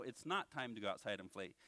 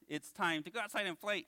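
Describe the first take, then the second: First: Said in the usual way. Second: Puppet voice, pitched above the ventriloquist's; eager puppet proposing playtime; Bones. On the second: Pretend. Puppet interrupting his ventriloquist, eager puppet voice. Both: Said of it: "I'm your ventriloquist".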